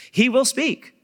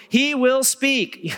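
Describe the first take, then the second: First: "He will speak" said high and firm at normal pace; quick, firm restatement; emphatic repeat. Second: "He will speak" stretched slow and high, each word leaned on; slow it right down and land every word; preacher's slow, lifted emphasis; drawn-out emphasis. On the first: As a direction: repeat it with conviction. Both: Shown as a demonstration.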